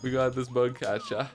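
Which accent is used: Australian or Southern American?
Australian. It is said in an Australian accent.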